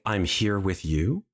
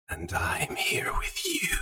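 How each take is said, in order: First: Said in the usual way. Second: Slow, eerie whisper; alien voice. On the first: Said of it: "when you say". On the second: Acted. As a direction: whisper softly like a presence inside the mind. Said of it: "you hear an alien voice".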